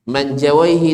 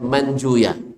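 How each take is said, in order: First: The name ends with the sounds 'awaihi'. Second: The name ends with the sounds 'uya'. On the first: This is the grammarians' reading. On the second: This is the hadith scholars' reading.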